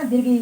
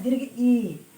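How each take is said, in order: First: Teacher models "दीर्घ ई" as the correct term. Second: "दीर्घ ई" said firmly with a falling close. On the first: Teacher models the term for students, clearly. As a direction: say "दीर्घ ई" with a long stretched ई. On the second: Teacher corrects students, stating the term plainly. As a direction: repeat "दीर्घ ई" as the right way to say it. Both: Shown as a demonstration. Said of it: "लेकिन बड़ी ई नहीं बोलना है".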